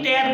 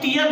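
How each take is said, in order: First: The vowel sounds like 'air'. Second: The vowel sounds like 'ear'. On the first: The speaker calls it right. "टेयर पढ़ते हैं" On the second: The speaker calls it wrong. "टीयर नहीं"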